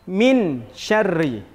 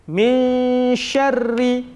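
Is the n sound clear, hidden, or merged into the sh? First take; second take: clear; hidden. First: The n is pronounced fully and clearly. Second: The n is a faint, held nasal sound. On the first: The speaker calls it wrong. "Dia tidak boleh dibaca izhar. Izhar tadi artinya jelas. Tidak boleh dibaca" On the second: The speaker calls it right. "samar-samar ... antara jelas dengan memasukkan"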